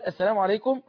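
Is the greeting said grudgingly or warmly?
grudgingly. The greeting sounds reluctant and unenthusiastic. The greeting is given only out of obligation. The speaker calls it wrong. "وهي طالعة اصلا يعني كأن يعني هو خد حقك بقى"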